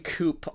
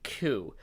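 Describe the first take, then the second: First: The word ends with a hard P sound. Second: The word ends without a P sound. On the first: "I always pronounce it with a hard P" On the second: "people like to pronounce it coup"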